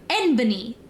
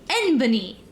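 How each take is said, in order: First: It is said as one three-syllable word. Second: It is said as one three-syllable word.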